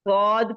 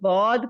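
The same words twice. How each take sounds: First: The letter name is said with an Urdu accent. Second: The letter name is said with an Arabic accent. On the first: "Urdu का हमारा हरूफ एक्सेंट ये है गौद का" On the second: "अरबी दानों का जो मखरिज है या उनका जो एक्सेंट है"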